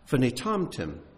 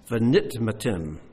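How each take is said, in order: First: It is said as vinitamtim, with t-m later. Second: It is said as vanitmatim, with t-m early. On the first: Lest you become stupid. "that word can be pronounced Vinitamtim" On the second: Lest you become contaminated. "Lest you become contaminated"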